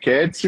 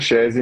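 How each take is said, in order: First: The name is said with Italian sounds. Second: The name is said with Portuguese sounds. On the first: "no italiano é Ketsi" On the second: "no português é Chese mesmo"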